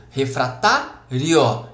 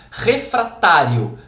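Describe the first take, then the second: First: "refratário" slowly, pausing after the stressed TÁ; split into syllables. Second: Said in the usual way. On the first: Shown as a demonstration. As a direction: break "refratário" into refra-tá, then rio. ("refratário" devagar, com pausa depois do TÁ) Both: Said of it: "também receberia acento".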